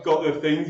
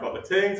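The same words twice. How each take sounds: First: Said in the usual way. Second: "tings" with a hard T; TH-stopping. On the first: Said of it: "instead of". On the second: Shown as a demonstration. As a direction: say "things" as "tings", T for TH. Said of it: "you have new sounds".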